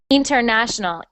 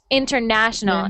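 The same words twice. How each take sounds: First: The stress is on the first syllable. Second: The stress is on the third syllable. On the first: The speaker calls it wrong. "I heard international, inter" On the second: The speaker calls it right. "we put the stress on the syllable that is na"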